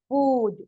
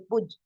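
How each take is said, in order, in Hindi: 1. स्वर लंबा और खिंचा हुआ है। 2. स्वर छोटा और झटके से बोला गया है। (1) "वाव के साउंड को खींचा गया" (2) "अगर इस पर पेश नहीं होता उल्टा, तो हम इसको पुज पढ़ सकते थे"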